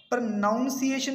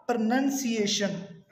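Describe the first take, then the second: First: "प्रोनाउंसिएशन" with noun in the middle; mispronunciation. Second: "प्रोनाउंसिएशन" with nun in the middle; slow "प्रोनाउंसिएशन", pro-NUN-si-ation; corrected pronunciation. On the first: Teacher warning learners, wrong noun vowel. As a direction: say "प्रोनाउंसिएशन" as pro-NOUN-si-ation. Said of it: "नहीं कहना". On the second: Teacher giving learners the correct nun vowel. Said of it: "इसे हम बोलते हैं". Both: Shown as a demonstration.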